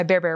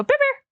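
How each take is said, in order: First: Said in the usual way. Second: Much higher, sing-song call of the dog's name. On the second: Shown as a demonstration. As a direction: call him brightly so his ears perk up. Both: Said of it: "and I go".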